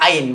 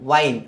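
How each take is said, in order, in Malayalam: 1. പ്രത്യയം ഒരു സ്വരാക്ഷരത്തിൽ തുടങ്ങിയാണ് പറയുന്നത്. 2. പ്രത്യയം ആദ്യം 'v' ശബ്ദത്തോടെയാണ് പറയുന്നത്. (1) "ഐൻ വൈനല്ല ഐൻ" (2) "വൈനല്ല"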